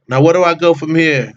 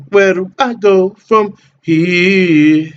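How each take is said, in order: First: Said in the usual way. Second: Slow sing-song, pitched higher and louder; drawn-out repeat. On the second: Real, not acted. Streamer lost in the menu, drawn-out slow and higher. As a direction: stretch every word out like a lazy tune.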